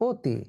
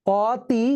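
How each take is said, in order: First: "অতি" as oti, closed o; actual pronunciation. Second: "অতি" slow, with open aw; as spelt. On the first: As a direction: say "অতি" with a rounded o first. ("অতি" উচ্চারণ ওতি) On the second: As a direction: stretch "অতি" out with aw first. ("অতি" ধীরে, খোলা অ দিয়ে) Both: Shown as a demonstration. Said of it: "কিন্তু হয়ে গেল".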